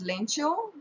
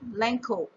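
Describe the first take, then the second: First: The middle consonant is a 'ch' sound. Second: The middle consonant is a 'k' sound. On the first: "is pronounced as Lencho in American or Spanish or Italian" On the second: "in British English, we pronounce it as Lenko"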